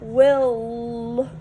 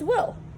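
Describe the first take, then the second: First: The final L sound is drawn out, doubled. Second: The final L sound is said only once. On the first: The speaker calls it wrong. "Will is not will" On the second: The speaker calls it right. "it's will"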